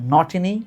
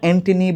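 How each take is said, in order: First: The name begins directly with an n sound. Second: The name begins with an added vowel. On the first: The speaker calls it right. "উচ্চারণটা হচ্ছে নটিনি নগেডি" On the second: The speaker calls it wrong. "উচ্চারণটা অ্যান্টনি বা এনগিডি না"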